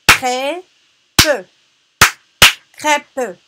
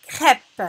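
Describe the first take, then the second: First: "Crêpe" split into loud crê - pe; "Crêpe" in two separated, higher, forceful syllables. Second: Said in the usual way. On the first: Shown as a demonstration. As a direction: punch both beats of "Crêpe", final e sounded. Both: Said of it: "frappe les syllabes".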